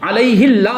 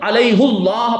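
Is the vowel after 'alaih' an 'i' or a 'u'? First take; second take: i; u. First: The vowel after 'alaih' is an 'i' sound. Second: The vowel after 'alaih' is a 'u' sound. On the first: This is what the grammar rules would expect. The speaker calls it wrong. "होना चाहिए था" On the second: This is how the text is traditionally recited. The speaker calls it right. "पढ़ा जाता है"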